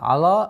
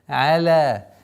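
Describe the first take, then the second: First: The vowel and L sound hard and heavy. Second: The vowel and L sound soft and light. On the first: The speaker calls it wrong. "Ала нет" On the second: The speaker calls it right. "мягкое произношение айна и ляма"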